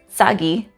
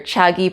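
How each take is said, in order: First: The word begins with a ts sound. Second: The word begins with a ch sound. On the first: "the sounds cha and tsa used interchangeably" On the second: "you might hear chagi pronounced as"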